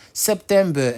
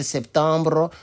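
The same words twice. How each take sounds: First: SEPTEMBER ending in an open -ber, no French R; English pronunciation. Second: SEPTEMBRE with nasal middle vowel and -bre ending; French pronunciation. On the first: Teacher giving the English month, open -ber ending. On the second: Teacher contrasting the French month, nasal vowel and -bre. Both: Shown as a demonstration. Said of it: "Et en français, septembre".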